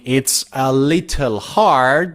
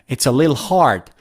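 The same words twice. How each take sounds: First: Little is said with a clear t sound. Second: Little is shortened to a single syllable, lil. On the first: "Instead of saying" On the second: "they don't even say de and they say lil"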